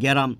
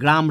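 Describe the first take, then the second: First: A vowel is inserted inside the opening consonant cluster. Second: The opening consonant cluster is said without a vowel. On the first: "বলি গ্যারাম" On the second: "বা গ্রাম রে বলি"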